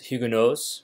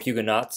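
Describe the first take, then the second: First: It is pronounced the French way. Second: It is pronounced the English way. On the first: "That's French" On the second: "or Huguenots in English"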